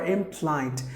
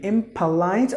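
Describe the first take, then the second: First: "impolite" in two syllables, im-plite; without the O. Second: "impolite" in three syllables, im-puh-lite. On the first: Teacher comparing two ways, im-plite without the O. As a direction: join p and l in "impolite". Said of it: "two ways to say this word". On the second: Teacher comparing two ways, im-puh-lite with the O. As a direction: keep a short puh in "impolite". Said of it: "another way of saying". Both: Shown as a demonstration.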